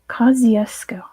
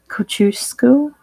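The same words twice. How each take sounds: First: The name is said with an Australian English pronunciation. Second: The name is said with a Polish-style pronunciation. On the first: "that's how you say it in Australian English" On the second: "I had to learn to say like Kosciuszko or something"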